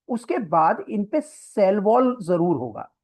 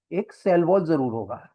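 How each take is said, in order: First: Slow, higher, stressing पे and cell wall जरूर होगा; emphasised statement. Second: Said in the usual way. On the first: Shown as a demonstration. Teacher drilling the cell wall fact for students, slow and stressed.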